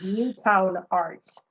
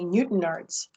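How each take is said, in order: First: The middle syllable has a full vowel. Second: The middle syllable has a reduced vowel. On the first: This is how a newcomer said the name. The speaker calls it wrong. "because it was Newtown Arts" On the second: This is how local people say the name. The speaker calls it right. "It took me a long time to say Newton Arts"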